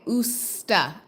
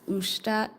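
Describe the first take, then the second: First: The consonant before the t is s. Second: The consonant before the t is sh. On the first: The speaker calls it right. "Not sh" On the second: The speaker calls it wrong. "So I'm mispronouncing"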